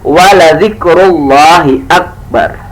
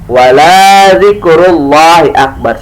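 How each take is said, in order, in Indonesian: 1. Vokal di 'la' dibaca pendek. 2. Vokal di 'la' dibaca panjang. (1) "Lainnya harusnya nggak boleh panjang. Harusnya" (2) "Bukannya ... salah"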